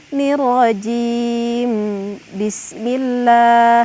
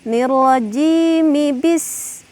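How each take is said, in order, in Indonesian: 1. Rajim diakhiri huruf m mati sebelum bismillah. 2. Rajim diakhiri vokal yang tersambung ke bismillah. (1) "tidak boleh seperti ini" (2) "harokat ketika kita membacanya diwaswalkan"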